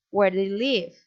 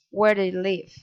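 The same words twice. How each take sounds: First: Interested question rising at LIVE; friendly rising intonation. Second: WHERE stressed, pitch falling to LIVE; falling intonation. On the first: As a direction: pitch swings up on LIVE. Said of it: "rising intonation". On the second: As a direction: neutral question that drops on LIVE. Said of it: "falling inton-, intonation". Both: Shown as a demonstration.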